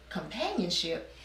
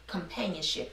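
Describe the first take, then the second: First: Soft questioning echo, pitch swooping up mid-word; puzzled echo. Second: A quiet, lower voice lightly imitating a mysterious message. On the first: Retold or imitated. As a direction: repeat it wonderingly, as a retold puzzled question. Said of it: "And I was like". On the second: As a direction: softly drop in the one word as an unseen voice. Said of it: "something just said".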